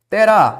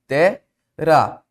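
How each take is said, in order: First: Said in the usual way. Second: "terá" in two separated syllables; split into syllables. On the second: Shown as a demonstration. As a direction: break "terá" as te, pause, rá.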